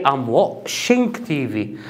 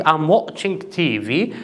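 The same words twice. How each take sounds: First: "washing" with a sh sound in place of ch; mispronounced watching. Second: Said in the usual way. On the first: Shown as a demonstration. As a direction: say "washing" for watching, drawn out slowly. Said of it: "This is a mistake". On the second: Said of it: "instead of saying".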